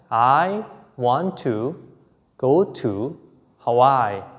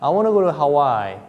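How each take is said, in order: First: Each word is said separately and fully. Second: The words run together as 'wanna'.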